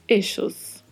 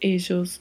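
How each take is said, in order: First: The double L sounds like English sh. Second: The double L sounds like the s in measure. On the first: "duplo L com som de X" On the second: "duplo L com som de J"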